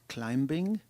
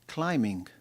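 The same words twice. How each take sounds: First: The b sound is pronounced. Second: The b sound is not pronounced. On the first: The speaker calls it wrong. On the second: The speaker calls it right. "Silent B"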